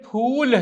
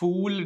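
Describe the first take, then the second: First: The word begins with an aspirated p sound. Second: The word begins with an f sound. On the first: It means flower. The speaker calls it right. "ये फूल है" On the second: It sounds like the English word fool. The speaker calls it wrong. "English का फूल हो जाएगा"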